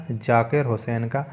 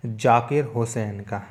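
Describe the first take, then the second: No difference in how they are said.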